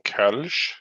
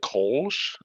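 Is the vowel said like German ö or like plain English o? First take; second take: German ö; English o. First: The vowel is a rounded front ö sound. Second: The vowel is a plain English o sound. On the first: The speaker calls it right. "there there are two dots over the O. It's a, it's an umlaut" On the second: The speaker calls it wrong. "you mean the Kolsch? It's like no"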